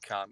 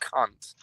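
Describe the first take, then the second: First: It is said softly and affectionately. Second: It is said harshly with a hard C. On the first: It is a friendly term of endearment. "it's a term of endearment" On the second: It is an insult meant to hurt.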